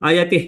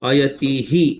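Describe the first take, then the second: First: The final 'hi' sound merges into the next word. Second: The final 'hi' sound is pronounced clearly. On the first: The speaker calls it right. "we need not pronounce it clearly ti he like we have to pronounce" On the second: The speaker calls it wrong. "there is some mistake from my end also"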